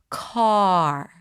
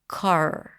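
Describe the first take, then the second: First: The vowel is held long; the R is brief. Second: The vowel is cut short; the R comes early. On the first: The speaker calls it right. "ninety percent of your pronunciation should be the pronunciation of the vowel" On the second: The speaker calls it wrong. "if you swallow the vowel"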